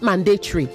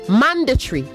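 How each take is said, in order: First: The stress is on a later syllable. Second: The stress is on the first syllable. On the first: The speaker calls it wrong. "not mandatory" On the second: The speaker calls it right. "The stress is on the first syllable"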